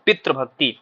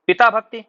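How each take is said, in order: First: पितृभक्ति with tr in the middle; correct form पितृभक्ति. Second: पिता भक्ति with long aa in पिता; wrong form पिता भक्ति. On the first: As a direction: sound the r in पितृभक्ति. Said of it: "क्या बोलना चाहिए". (पितृभक्ति, तृ बोलकर) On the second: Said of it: "पिता भक्ति शुद्ध नहीं है". (पिता भक्ति, ता में आ के साथ) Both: Shown as a demonstration.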